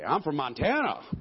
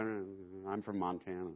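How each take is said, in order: First: It is said loudly and proudly. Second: It is said quietly and casually. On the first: The thing named is the greatest. The speaker calls it right. "Let's say it loud" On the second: The thing named does not seem important. The speaker calls it wrong. "You don't say the greatest like"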